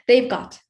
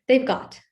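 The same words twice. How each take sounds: The two takes are said the same way.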